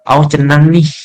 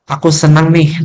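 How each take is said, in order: First: The second word starts with a c sound. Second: The second word starts with an s sound. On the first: The speaker calls it wrong. "mensubstitusi bunyi kata" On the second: The speaker calls it right. "mau ngomong"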